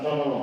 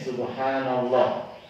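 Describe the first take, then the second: First: The phrase is rushed and its syllables are swallowed. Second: Every syllable of the phrase is said clearly. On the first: The praise is not really said. The speaker calls it wrong. "Bukan sonollah ... itu bukan subhanallah" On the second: The praise is really said and counts. The speaker calls it right. "Dengan benar-benar membaca ya, jangan terburu-buru"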